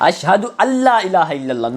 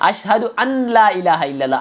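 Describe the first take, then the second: First: The n merges into a doubled l sound. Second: A separate n is heard before la. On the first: The speaker calls it right. "नून पे जो जज़म है वो लाम से मिलाएंगे" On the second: The speaker calls it wrong. "यहाँ बड़ी गलती लोग ये करते हैं"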